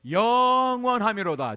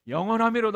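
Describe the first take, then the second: First: It is said slowly and drawn out. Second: It is said quickly and flatly.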